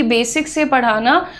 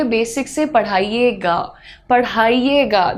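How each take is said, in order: First: Said in the usual way. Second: Slower, slightly softened polite request; well-mannered request. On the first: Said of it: "तो आपको कहना चाहिए". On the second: Shown as a demonstration. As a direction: ask a teacher respectfully, taking your time. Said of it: "That shows your manners".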